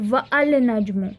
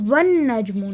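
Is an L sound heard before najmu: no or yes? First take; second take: yes; no. First: A separate L sound is pronounced. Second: The L merges into the N sound. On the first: The speaker calls it wrong. "Not वल नजमु" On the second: The speaker calls it right. "Is pronounced as one नजमु"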